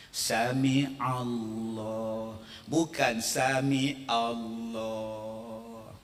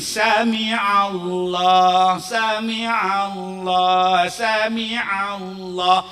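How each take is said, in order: First: "Sami Allah" said slow with a plain A sound; slow sung-out wrong "sami Allah"; wrong pronunciation. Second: "sami Allah" with the throaty ain sound, slow and loud; correct pronunciation. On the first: Preacher mocking the wrong way to say it, slow. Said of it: "Sebutan dia". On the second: Preacher showing the crowd the right makhraj, slow and loud. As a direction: stretch "sami Allah" slowly, stressing the ain. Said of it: "dia bukannya A, dia ain". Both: Shown as a demonstration.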